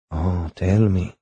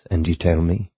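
First: Slow coaxing. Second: Said in the usual way. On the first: Acted. Coaxing him to tell more.

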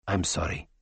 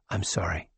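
First: Low, soft and regretful; doctor apologizing again to the dying man; quiet apology. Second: Low, soft sorry; doctor apologizing to a dying man; quiet apology. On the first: Tachyon repeats apology quietly. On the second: First apology to Grogan. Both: Acted. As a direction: say it gently, lower and softer.

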